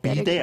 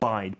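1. 이 단어는 두 음절로 발음해요, bi-dae. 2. 이 단어는 한 음절로 발음해요, bide. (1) "이거 비대 아니에요" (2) "Bide, B-I-D-E"

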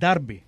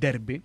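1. Η πρώτη συλλαβή ακούγεται σαν 'dar'. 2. Η πρώτη συλλαβή ακούγεται σαν 'der'. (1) "η πόλη και η ομάδα είναι Derby" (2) "όχι Derby"

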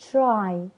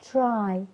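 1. الـ tr بتتنطق قريب من صوت ch. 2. الـ tr بتتنطق قريب من صوت ch.

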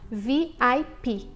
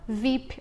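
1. Cada letra é dita separadamente. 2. Ela é dita como uma palavra só. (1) "Você fala cada letra separado" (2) "No inglês você não fala VIP"

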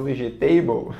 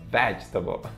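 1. A tônica está em uma sílaba posterior. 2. A tônica está na primeira sílaba. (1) "não é vegetable, ok? Vegetable não existe" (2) "No ve, vegetable"

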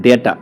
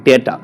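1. প্রথম স্বরধ্বনিটি 'ay' এর মতো শোনায়। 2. প্রথম স্বরধ্বনিটি 'ay' এর মতো শোনায়।

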